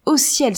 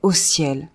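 First: « Au ciel » soufflé dans un cri étouffé; un cri de stupeur, tout en souffle; exclamation chuchotée. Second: Said in the usual way. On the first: Acted. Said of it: "s'écria la malheureuse Justine". (« Au ciel » chuchoté, vif et étonné) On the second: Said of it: "Au ciel, s'écria".

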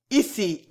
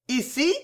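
First: Said in the usual way. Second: "Ici" as a questioning repeat, pitched higher; searching echo. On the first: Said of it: "répéta Bijou". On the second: A narrator's reading. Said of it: "répéta Bijou qui sembla chercher". (« Ici » répété d'un ton interrogateur, plus aigu)

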